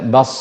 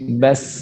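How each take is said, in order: First: The s is heavy, said as emphatic sad. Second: The s is thin, said as plain sin. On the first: The speaker calls it wrong. "tidak membaca dengan shad, bukan dibaca bas" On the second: The speaker calls it right. "tapi bas, ya, tipis, sin tipis"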